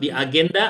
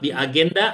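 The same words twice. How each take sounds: First: Agenda is pronounced with Indonesian sounds. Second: The same.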